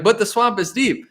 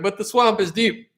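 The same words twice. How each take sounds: First: Plain and sincere; mean every word; serious. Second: Dry, knowing sarcasm; sarcastic. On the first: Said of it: "you might be serious and be like". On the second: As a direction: say it with a wink. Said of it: "being sarcastic and being like". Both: Retold or imitated.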